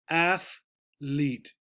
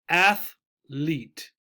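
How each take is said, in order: The two takes are said the same way.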